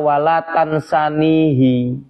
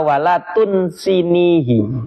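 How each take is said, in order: First: The verb is voweled tansanihi, with a and a. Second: The verb is voweled tunsinihi, with u and i. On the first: This is the reading passed down with the prayer. "loh itu kok bacanya walatan sanihi" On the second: This is the grammatically correct form. "Mestinya walatun sinihi. Yang benar begitu"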